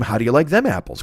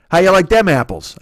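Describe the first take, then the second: First: Said in the usual way. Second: Loud, higher hammed-up Boston accent on "How you like them apples". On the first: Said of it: "I can't do a Boston accent". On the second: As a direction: punch it like a brash Boston guy. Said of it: "I can't do a Boston accent, but I'll try".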